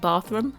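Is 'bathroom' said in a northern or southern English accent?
northern. It is said in a northern English accent. "that would be the northern way of saying bathroom"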